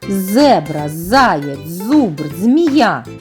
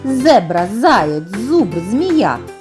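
First: The words are said at a slower pace. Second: The words are said at a faster pace.

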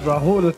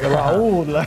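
First: The name is pronounced the Indian way. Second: The name is pronounced the Spanish way. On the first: This is the name wrongly assumed at first. The speaker calls it wrong. "not Rahul" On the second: This is the chef's real name. The speaker calls it right. "so it's like Rahul"

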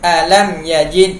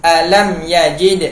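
No difference in how they are said.

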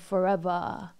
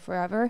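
First: The last syllable is opened to an 'ah' sound. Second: The last syllable has an ordinary 'er' sound. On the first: "that ah sound allows for, you know, his beautiful tone to shine" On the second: "like you would pronounce it if you were talking"

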